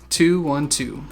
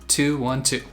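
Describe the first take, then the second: No difference in how they are said.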